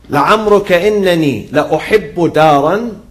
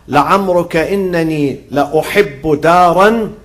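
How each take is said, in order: No difference in how they are said.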